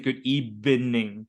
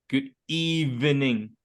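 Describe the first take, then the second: First: Evening is said with a B-like sound. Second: Evening is said with a clear V sound. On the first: The speaker calls it wrong. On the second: The speaker calls it right.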